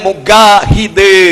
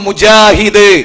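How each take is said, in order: First: The middle consonant is a hard 'g' sound. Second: The middle consonant is a 'j' sound. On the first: This is how Egyptians say it. "അവർ പറയാം മുഗാഹിദ് എന്നാണ്" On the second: This is how the speaker's own community says it. "നമ്മൾ മുജാഹിദ്"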